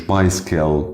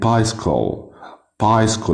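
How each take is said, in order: First: Bicycle ending in "kel"; wrong light L ending. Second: Bicycle said as "bys-kol"; dark rounded L ending. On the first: Teacher showing how bicycle is not said, "kel" ending. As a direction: say bicycle with an unrounded "bys-kel". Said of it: "مش bicycle". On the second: Teacher modelling bicycle for learners, rounded "kol" ending. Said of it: "بنضم في ال إل إي". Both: Shown as a demonstration.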